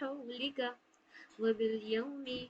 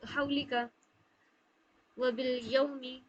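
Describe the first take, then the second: First: The glide is said with a soft, gentle sound. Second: The glide is said with harsh, forceful sound. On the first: The speaker calls it right. "नरमी से पढ़ना है" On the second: The speaker calls it wrong. "इसमें ज्यादा सख्ती ले, ले आएंगे अगर ऐसे पढ़ेंगे हम"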